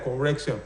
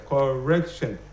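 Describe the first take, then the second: First: Said in the usual way. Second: "correction" broken into its three syllables; syllable-by-syllable demo. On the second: Shown as a demonstration. Teacher showing the class three syllables, deliberately segmented "correction". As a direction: sound out "correction" part by part, cor-rec-tion. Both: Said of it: "three syllables".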